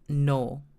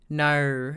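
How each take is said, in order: First: It is said with a Japanese accent. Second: It is said with an Australian accent.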